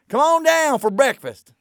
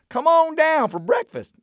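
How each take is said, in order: First: It is said in a harsh, rude tone. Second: It is said in a nicer, friendlier tone.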